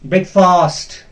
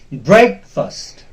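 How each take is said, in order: First: The stress is on the second syllable. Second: The stress is on the first syllable. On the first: The speaker calls it wrong. "usually we pronounce it very wrongly. Breakfast. That is wrong" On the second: The speaker calls it right. "It is breakfast"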